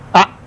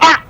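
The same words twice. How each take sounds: First: The sound is said mildly, with normal force. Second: The sound is said with more force and intensity.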